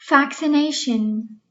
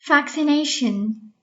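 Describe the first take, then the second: The two takes are said the same way.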